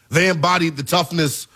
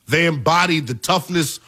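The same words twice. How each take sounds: The two takes are said the same way.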